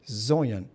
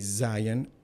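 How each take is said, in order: First: The word is said in the local community accent. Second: The word is said in a standard accent. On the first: This is how the local community says it. "We say here Zoyan" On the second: This is not how the local community says it. "I don't say Zion"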